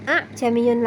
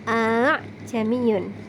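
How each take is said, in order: First: Two separate hamza stops are pronounced. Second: One hamza is pronounced, drawn out long. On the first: The speaker calls it wrong. "bukan a'jamiyun lagi" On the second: The speaker calls it right. "dibaca dengan satu hamzah saja dengan memanjangkannya atau seperti diseret"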